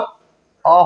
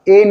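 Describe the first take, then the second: First: The vowel is a short, weak 'uh' sound. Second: The vowel is a full 'ay' sound. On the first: The speaker calls it right. "अ होगा" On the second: The speaker calls it wrong. "ए नहीं होगा"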